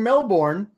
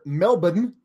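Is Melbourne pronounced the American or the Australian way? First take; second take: American; Australian. First: Melbourne is said with an American pronunciation. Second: Melbourne is said with an Australian pronunciation.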